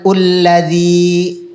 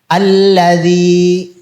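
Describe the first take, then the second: First: The word begins with a u vowel. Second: The word begins with an a vowel. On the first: The speaker calls it wrong. "bukan ulladzi" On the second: The speaker calls it right. "maka alifnya dibaca a"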